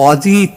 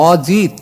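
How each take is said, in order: The two takes are said the same way.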